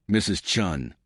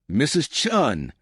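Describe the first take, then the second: First: Said in the usual way. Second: Higher, drawn-out sharp call; snapped name. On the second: A narrator's reading. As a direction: snap the name as a rebuke. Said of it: "Richard snapped".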